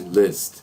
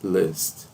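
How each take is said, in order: First: The vowel sits between an 'i' and an 'a'. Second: The same.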